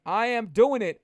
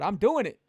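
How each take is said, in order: First: I am doing it, with AM spelled out and punched louder; louder emphatic repeat on am; stress on AM. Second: Said in the usual way. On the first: Shown as a demonstration. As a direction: hit the word am hard.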